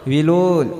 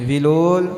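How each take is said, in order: No difference in how they are said.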